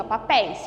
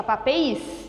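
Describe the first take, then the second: First: "papéis" with open, stressed é in the last syllable. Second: "papéis" mispronounced pa-pe-ÍS, stress on the i; wrong stress on I. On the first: Teacher giving the correct word, stress on open é. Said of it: "se eu acentuar o I, não fica papéis". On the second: Teacher showing how nobody says it, stress moved to I. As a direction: say "papéis" with closed e and accented I. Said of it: "não é assim que a gente fala". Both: Shown as a demonstration.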